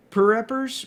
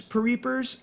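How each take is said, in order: First: Pereppers with a short e, pa-REP-pers; sounding out Pereppers, stress on REP; tentative Pereppers, pa-REP-pers; first try at the name. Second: Pereepers with a long ee, pa-REE-pers; second try at the name. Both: Shown as a demonstration. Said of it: "mispronouncing your name".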